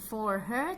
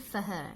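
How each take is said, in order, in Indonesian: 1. Kata-katanya diucapkan dalam bentuk penuh. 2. Kata-katanya diucapkan dalam bentuk tereduksi. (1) "bukan for her" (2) "tapi for her"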